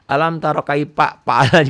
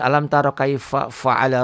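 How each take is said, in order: First: The f sounds are said as P sounds. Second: The f sounds are said as clear F sounds. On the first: The speaker calls it wrong. "Kalau orang Sunda" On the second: The speaker calls it right. "Itu harusnya"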